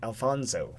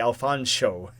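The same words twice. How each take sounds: First: The name is said with a plain 's' sound. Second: The name is said with an 'sh' sound. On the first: The speaker calls it wrong. "He gets offended if you pronounce it Alfonso" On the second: The speaker calls it right. "Pronouncing the sh sound is very important"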